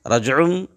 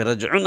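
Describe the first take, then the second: First: رجعن said with a final m sound, rajum; iqlab pronunciation. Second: رجعن with a clear final n, rajun; original nun. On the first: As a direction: say رجعن ending in meem before the b. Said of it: "رجعن اصل میں تھا". (رجعن میں نون کی جگہ میم) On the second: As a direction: say رجعن as written, ending in nun. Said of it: "اصل میں تھا". (رجعن کی اصل نون والی آواز) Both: Shown as a demonstration.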